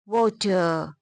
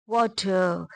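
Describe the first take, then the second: No difference in how they are said.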